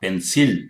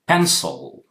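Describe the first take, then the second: First: The second vowel is a full vowel. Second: The second vowel is a weak schwa. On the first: The speaker calls it wrong. "not pencil" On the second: The speaker calls it right. "sil, sil"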